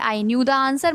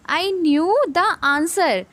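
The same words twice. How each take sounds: First: Said in the usual way. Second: Very slow, word by word; slow read-aloud. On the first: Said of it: "यहाँ पे new का meaning है". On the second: Shown as a demonstration. Teacher reading the example sentence, very slowly. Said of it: "ये वाला".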